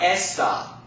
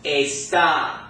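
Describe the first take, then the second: First: The stress is on the first syllable. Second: The stress is on the last syllable. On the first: The speaker calls it wrong. "not esta" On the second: The speaker calls it right. "this word is going to be pronounced está"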